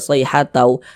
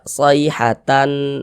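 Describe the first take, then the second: First: The n sound merges into the w. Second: The n sound is pronounced clearly. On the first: The speaker calls it right. "tapi dibaca sayhatau karena dia bunyi tanwinnya dia masuk" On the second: The speaker calls it wrong. "jangan dibaca sayhatan"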